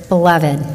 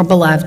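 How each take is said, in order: First: "beloved" in three syllables, be-LUV-id; three-syllable pronunciation. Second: "beloved" in two syllables, be-LUVD; two-syllable pronunciation. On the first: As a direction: sound the final -ed in "beloved" as its own syllable. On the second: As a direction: run the -ed of "beloved" into the v, no extra syllable. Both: Shown as a demonstration. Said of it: "depending on how you're gonna pronounce it".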